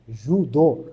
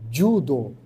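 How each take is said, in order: First: The word begins with a soft 'zh' sound. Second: The word begins with a 'dj' sound. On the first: The speaker calls it wrong. "aqui para nós tem o, o som de já" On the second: The speaker calls it right. "o J no Japão ele tem esse som de D J"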